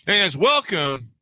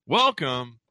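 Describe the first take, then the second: First: Cracking high greeting. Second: Said in the usual way. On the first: Real, not acted. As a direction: voice breaks on the welcome. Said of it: "my voice cracked at the beginning there".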